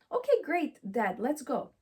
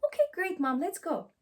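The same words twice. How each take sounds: First: Put-on eager child. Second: Higher, bright eager reply; eager child. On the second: Acted. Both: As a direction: chirp it like a keen kid. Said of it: "they will support me".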